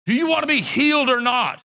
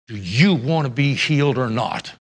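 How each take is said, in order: First: Forceful demand. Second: Low, stern, firm question. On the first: Shown as a demonstration. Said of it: "That's the manner in which it's written". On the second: Retold or imitated. Jesus asking the lame man, low and stern. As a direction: ask it flatly, like a demand for an answer. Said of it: "Jesus said in a stern voice".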